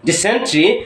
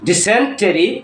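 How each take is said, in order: First: The ending is reduced to a single 'tree'. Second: The ending keeps a full vowel before 'ree'. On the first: The speaker calls it right. "উচ্চারণটা হবে ট্রি" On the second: The speaker calls it wrong. "টরি, টেরি কিংবা টারি না"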